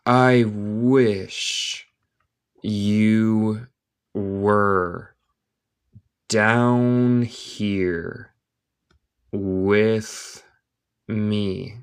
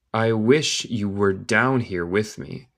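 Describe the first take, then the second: First: Very slow, long gaps between words; word-by-word dictation. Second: Whole sentence slowly, without long gaps; slow connected reading. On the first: Teacher reading Alice to Spanish-speaking learners, word by word. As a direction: draw out each word for learners. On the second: Teacher repeating the line for learners, slow and connected. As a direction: join the words up at a learner's pace. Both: Shown as a demonstration.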